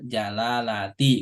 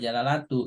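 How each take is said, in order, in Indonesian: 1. Kata ini diakhiri vokal i. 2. Kata ini diakhiri vokal u. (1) "Lafdul jalalati" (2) "nggak boleh jalalatu"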